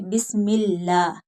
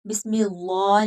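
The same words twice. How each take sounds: First: बिस्मिल्लाह with a light, open "llaah"; thin lam. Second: बिस्मिल्लाह with a thick, dark "llaw"; heavy lam. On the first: Teacher models the correct reading, thin lam in बिस्मिल्लाह. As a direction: keep the l of बिस्मिल्लाह thin, vowel unrounded. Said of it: "बारीक होगा". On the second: Teacher shows the wrong reading, heavy lam in बिस्मिल्लाह. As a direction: round the l and vowel of बिस्मिल्लाह into "llaw". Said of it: "नहीं पढ़ेंगे". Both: Shown as a demonstration.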